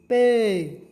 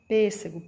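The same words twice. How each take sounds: First: Pêssego with the first syllable pês punched loud; stress on PÊS. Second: Said in the usual way. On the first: Shown as a demonstration. Teacher to children, pêssego with pês stressed loud. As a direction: hit pês hard in pêssego, the rest light. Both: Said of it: "Som mais forte, o pês".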